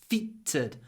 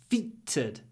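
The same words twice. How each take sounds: Both takes have the same delivery.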